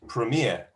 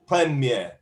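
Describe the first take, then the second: First: It is said with the American English stress pattern. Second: Both syllables get equal weight, French style. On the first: "American English" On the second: "in French, ... syllables are equal weighting"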